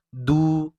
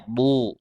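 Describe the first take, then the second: First: Du said thin; wrong du. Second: Du said heavy and thick; right du. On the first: Teacher shows the wrong thin du. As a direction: du light, as if thin. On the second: Teacher shows the heavy du. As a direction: du with the tongue root raised. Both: Shown as a demonstration. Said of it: "bukan du".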